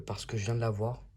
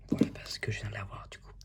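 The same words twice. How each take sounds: First: Said in the usual way. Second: Quick whispered aside, no voice. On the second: Real, not acted. YouTuber whispering a repeated aside to viewers. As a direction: breathe it out fast like a secret.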